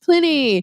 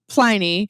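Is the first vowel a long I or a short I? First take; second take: short I; long I. First: The first vowel is a short I sound. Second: The first vowel is a long I sound. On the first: This is the traditional pronunciation of the name. "you are correct, uh, but that's not the way we pronounce the name of the beer" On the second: This is how the brewery names its beer. "with a long I"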